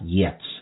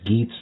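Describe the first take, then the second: First: The word begins with a Y sound. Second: The word begins with a hard G sound. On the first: This is not how the film pronounces it. "not Yets" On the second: This is how the film pronounces it. "They do pronounce it as Geats"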